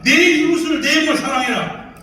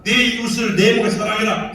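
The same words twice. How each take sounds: First: 이웃을 punched in a loud, high preaching shout. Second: Said in the usual way. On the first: Acted. Preacher booming the commandment at the audience, loud and high. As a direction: thunder the commandment.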